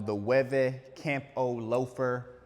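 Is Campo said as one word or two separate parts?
two parts. Campo is split into two separate parts. The speaker calls it wrong.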